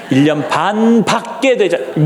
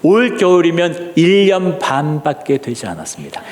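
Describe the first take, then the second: First: 반밖에 drawn out slowly for emphasis; slowed repeat underlining 반밖에; stress on 반밖에. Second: Said in the usual way. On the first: Shown as a demonstration. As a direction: lean hard on 반밖에, stretching it. Repeats answer to underline the point. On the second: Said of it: "이렇게 대답".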